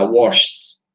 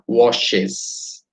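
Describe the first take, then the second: First: The word ends in a bare s sound. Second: The word ends with an extra syllable. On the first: The speaker calls it wrong. "Do jeito que está aí, tá washes, washes, é mais difícil de pronunciar" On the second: The speaker calls it right. "Quando entra a letra E, a diferença é perceptível, né? Agora vai virar washes"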